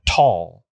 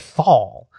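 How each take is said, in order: First: It begins with a plain t sound. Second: It begins with a th sound. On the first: This is the German way of saying it. "I think it's pronounced in German, tall" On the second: This is the English way of saying it. "But in English, there's an H, so we say thal"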